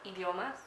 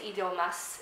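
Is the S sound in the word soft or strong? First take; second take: soft; strong. First: The S sound is soft and light. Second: The S sound is strong and hissy. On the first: "it's like idiomas. It's very soft" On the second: "she doesn't say idiomas"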